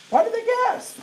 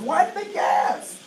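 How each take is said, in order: First: "gasp" pushed much higher on the repeat; emphatic repeat. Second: Said in the usual way. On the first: Shown as a demonstration. Presenter pressing the audience, with "gasp" pitched way up. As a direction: ask again, punching "gasp" high.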